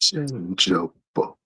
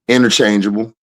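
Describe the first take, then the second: First: It is said slowly. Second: It is said at normal speed.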